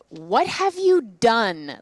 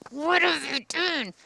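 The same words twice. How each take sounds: First: It sounds scornful, as if calling someone dumb. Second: It sounds angry.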